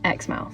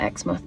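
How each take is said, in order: First: It is said the Australian way, like spelled. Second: It is said the British way. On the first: "In Australia they pronounce theirs Exmouth" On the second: "in the U K we have a place called Exmouth and we pronounce it Exmouth"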